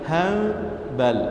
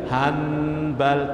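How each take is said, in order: First: The n turns almost into an m. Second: A clear n sound comes before the b. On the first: The speaker calls it right. "Hampir-hampir mim" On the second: The speaker calls it wrong. "tak kena juga"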